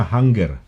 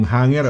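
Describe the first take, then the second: First: "hanger" with a hard g, as hang-ger; Birmingham pronunciation. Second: Said in the usual way. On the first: Shown as a demonstration. Host shows the local way, hard-g "hanger". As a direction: sound the g in "hanger" separately. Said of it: "Ang pronunciation na". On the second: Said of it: "Ang pronunciation na, hanger".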